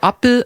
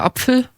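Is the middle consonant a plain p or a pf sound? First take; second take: p; pf. First: The middle consonant is a plain p. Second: The middle consonant is a pf sound. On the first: This is how it is said in the north. "im Norden sagt man eher so" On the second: This is how it is said in the south. "bei uns sagt man"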